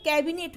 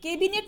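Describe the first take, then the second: First: कैबिनेट with open "ai", as kaibinet; correct कैबिनेट. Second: कैबिनेट with close "e", as kebinet; mispronounced कैबिनेट. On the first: Teacher gives the right word, कैबिनेट as kaibinet. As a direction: open the first vowel of कैबिनेट. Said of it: "क्या होता है". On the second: Teacher reads the misspelling, कैबिनेट said as kebinet. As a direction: narrow the first vowel of कैबिनेट to e. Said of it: "कैबिनेट नहीं होता". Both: Shown as a demonstration.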